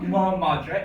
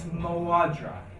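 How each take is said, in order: First: The second word starts with an M sound. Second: The second word starts with a W sound. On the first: The speaker calls it wrong. "it's not Mo Madra" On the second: The speaker calls it right. "do you hear how that flows better?"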